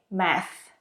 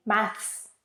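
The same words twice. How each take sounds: First: "math" ending on a plain TH, no S; American math. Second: "maths" ending in TH followed by S; British maths. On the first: Teacher showing learners the simpler American word, "math" without final s. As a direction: say "math", stopping on the th sound. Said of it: "in American English, you can simply say math". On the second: Teacher showing learners the British word, "maths" with final th-s. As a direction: say "maths" with a th sound, then an s. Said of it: "In British English, you have to say maths, T H followed by S". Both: Shown as a demonstration.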